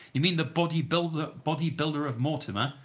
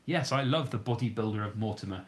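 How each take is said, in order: First: Higher and louder, asking in surprise; surprised question. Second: Said in the usual way. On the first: Real, not acted. To a viewer, asking which bodybuilder he means, surprised. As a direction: check the name with pleased surprise.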